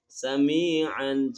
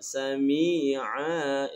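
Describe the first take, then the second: First: The word ends with an n sound. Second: The word ends on a long vowel. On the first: The reader keeps going without stopping. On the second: The reader stops on this word.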